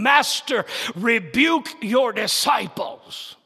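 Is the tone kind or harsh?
kind. It is said in a kind, calm tone.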